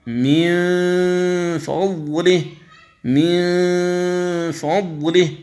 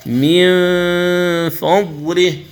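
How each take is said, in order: First: من فضله with the hum pushed out of the mouth, drawn out; wrong ghunna. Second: من فضله with the nasal hum from the nose, lips ready for the ف; correct ikhfa. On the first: Teacher imitating a reader's mouth ghunna mistake. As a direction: voice the nasal of من فضله through the mouth, the error. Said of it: "فيخرج صويت". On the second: Teacher giving students the correct reading. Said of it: "مستعد بالنطق بالفاء". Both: Shown as a demonstration.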